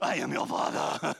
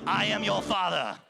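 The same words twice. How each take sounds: First: It is said in a raspy Darth Vader voice. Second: It is said in a normal voice.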